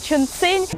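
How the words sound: The name is said with a Russian pronunciation. "по-русски это Чунцин"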